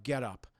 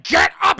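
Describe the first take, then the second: First: Low, soft retold command; contained menace, kept low and soft; quiet order. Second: Sudden high, explosive yelled order; furious shout. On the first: Captor finds the suit, acting a quiet low order. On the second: Retold or imitated. Captor grabs captive, acting a furious shout. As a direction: roar it as you grab her.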